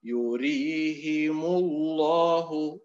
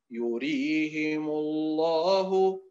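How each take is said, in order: First: يريهم الله chanted slowly with the meem of يريهم drawn long, wrong; slow chant of يريهم الله, a long vowel added after the meem; wrong recitation. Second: يريهم الله chanted slowly with the meem of يريهم sounded short; slow chant of يريهم الله, no long vowel after the meem; correct recitation. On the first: Teacher showing students the deviant reading, slow chant. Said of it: "الأداء المنحرف". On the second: Teacher showing students the correct reading, slow chant. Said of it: "الأداء المستقيم". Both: Shown as a demonstration.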